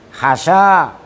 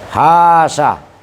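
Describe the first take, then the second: First: Only the second vowel is long. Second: Only the first vowel is long. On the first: "membuang alif al ula yang pertama" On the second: "membuang alif yang kedua... serta utuhnya alif yang pertama"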